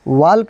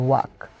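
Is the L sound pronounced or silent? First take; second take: pronounced; silent. First: The L sound is pronounced. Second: The L sound is silent. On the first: The speaker calls it wrong. "वाल्क नहीं" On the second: The speaker calls it right.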